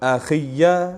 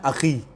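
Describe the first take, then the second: First: The word ends in an added -iya syllable. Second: The word ends in a plain long i. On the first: "इन चार लफ्जों को दो तरीकों से" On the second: "पहले क्या पढ़ा मैंने"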